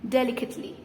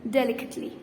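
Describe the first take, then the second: Both takes have the same delivery.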